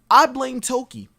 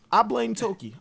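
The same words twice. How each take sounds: First: Emphatic. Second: Said in the usual way. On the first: Real, not acted. Joking declaration, then apology.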